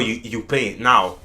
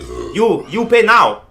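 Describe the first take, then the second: First: It is said in the speaker's normal accent. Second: It is said in a put-on Chinese accent.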